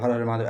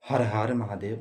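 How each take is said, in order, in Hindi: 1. यह वाक्यांश जल्दी बोला गया है, एक-दूसरे में मिलाकर। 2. यह वाक्यांश धीरे और शांति से बोला गया है। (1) "ऐसे नहीं बोलना" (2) "अस्थि से"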